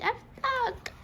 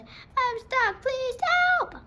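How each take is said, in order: First: A high, worried little cry; dismayed cry. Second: Higher and louder, calling down for help; shouting for help. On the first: Maid stuck atop the mattresses, crying out in dismay. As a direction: wail it in mild dismay. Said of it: "Peg cried". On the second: Stuck maid shouting loudly down for help. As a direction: call out as loudly as she can. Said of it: "she shouted as loudly as she could". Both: A narrator's reading.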